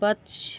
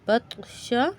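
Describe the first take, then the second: First: The word ends on a bare consonant. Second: The word ends with a final vowel.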